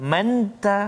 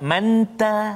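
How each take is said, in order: No difference in how they are said.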